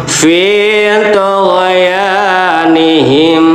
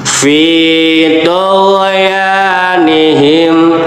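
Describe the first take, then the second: The two takes are said the same way.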